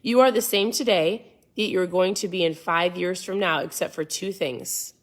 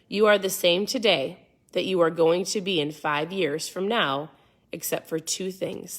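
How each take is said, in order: First: It is read at a faster pace. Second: It is read at a slower pace.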